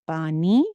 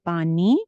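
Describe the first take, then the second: The two takes are said the same way.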